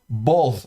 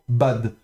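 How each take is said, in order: First: The vowel sounds between 'a' and 'o'. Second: The vowel sounds like a plain open 'a'. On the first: This is the older, purist pronunciation. "le kamet se prononçait plutôt entre le A et le O ... comme à l'ancienne" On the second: This is the modern pronunciation. "en hébreu moderne, on prononcera ça simplement bad"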